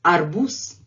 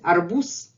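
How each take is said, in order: First: The final consonant is a voiceless s sound. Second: The same.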